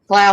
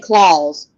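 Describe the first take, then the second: First: The name is said with a German pronunciation. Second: The name is said with an American pronunciation. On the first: "the German pronunciation" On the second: "the American pronunciation"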